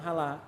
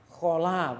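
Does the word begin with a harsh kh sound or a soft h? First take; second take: soft h; harsh kh. First: It begins with a soft, breathy h sound. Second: It begins with a rough, scraping kh sound. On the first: The speaker calls it wrong. "bukan hala" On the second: The speaker calls it right.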